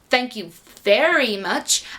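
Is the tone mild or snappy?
snappy. It is snapped out sharply in a raised voice. A rude, dismissive put-down. "snapped at him, like, really ignorantly, and really raised her voice"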